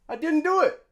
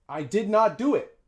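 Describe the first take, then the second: First: The words are contracted into one short didn't. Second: The words did not are said fully, separately. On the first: The speaker calls it right. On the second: The speaker calls it wrong.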